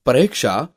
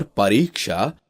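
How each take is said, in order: First: परीक्षा said 'pareksha'; short, lax vowel for ee in परीक्षा; wrong vowel. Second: परीक्षा with long ee; correct vowel. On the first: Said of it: "अशुद्ध शब्द है". (परीक्षा को 'परिक्षा' बोलना) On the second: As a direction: draw out 'ree' in परीक्षा. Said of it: "शुद्ध शब्द है". (परीक्षा में लंबी ई) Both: Shown as a demonstration.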